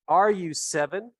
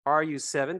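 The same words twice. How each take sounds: First: "Are you seven?" slow, higher and louder; slow, raised teacher model of "Are you seven?"; slow model question. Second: Said in the usual way. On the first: Shown as a demonstration. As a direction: lay out "Are you seven?" slowly for learners.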